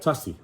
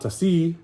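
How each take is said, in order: First: The stress is on the first syllable. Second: The stress is on the last syllable. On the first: The speaker calls it right. "the second to the last syllable is is is what we uh, normally would emphasize. So we have tasi" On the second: The speaker calls it wrong. "Not tasi"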